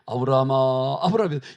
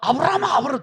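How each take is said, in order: First: The name is called slowly and leisurely. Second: The name is called hurriedly and urgently.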